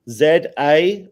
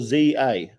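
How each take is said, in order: First: Z is said the British way, as zed. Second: Z is said the American way, as zee.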